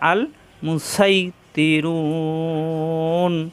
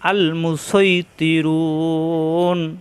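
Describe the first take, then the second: First: The s is a light, plain sound. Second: The s is a heavy, emphatic sound. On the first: "যদি সিন দিয়ে পড়ি" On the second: "সদ্যে পড়লে"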